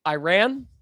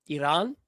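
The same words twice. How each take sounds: First: "Iran" as eye-RAN, rising; trying pronunciations. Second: "Iran" as ih-RAHN, rising; trying pronunciations. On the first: Streamer testing how to say the name, "Iran" as eye-RAN. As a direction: say "Iran" questioningly with EYE first. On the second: Streamer testing how to say the name, "Iran" as ih-RAHN. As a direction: say "Iran" questioningly with an AH second vowel. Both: Shown as a demonstration. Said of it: "no matter how I say it".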